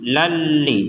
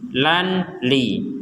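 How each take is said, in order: First: The n merges into the l without nasal hum. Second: The n is pronounced clearly before the l. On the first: The speaker calls it right. "dimasukkan tanpa dengung sama sekali" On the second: The speaker calls it wrong. "Kalau dibaca dengan jelas maka akan menjadi nakalan li"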